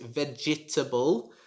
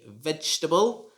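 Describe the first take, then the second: First: The second E is sounded as a syllable. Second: The second E is silent. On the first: The speaker calls it wrong. "you should not pronounce it vegetable" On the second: The speaker calls it right. "The second E is silent, so you should just say vegetable"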